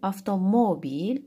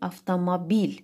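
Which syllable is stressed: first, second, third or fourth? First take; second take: third; fourth. First: The stress is on the third syllable. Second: The stress is on the fourth syllable.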